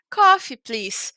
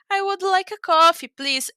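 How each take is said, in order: First: Slow, blunt two-word order; just bark the order, no frills; curt order. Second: Higher, louder, friendly polite request. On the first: (pedido seco e lento) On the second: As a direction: ask nicely, bright and courteous. (pedido simpático e educado) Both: Shown as a demonstration. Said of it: "uma maneira mais simpática de dizer".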